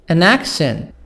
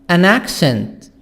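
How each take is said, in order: No difference in how they are said.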